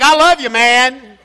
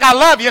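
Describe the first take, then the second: First: Slow, laughing macho voice; laughing bro impression. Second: Said in the usual way. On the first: Shown as a demonstration. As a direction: ham up the guy-to-guy hedge. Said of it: "It's like". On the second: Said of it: "it ain't like".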